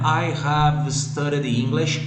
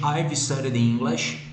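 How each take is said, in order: First: I and have are said as two full words. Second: I and have are joined into one syllable.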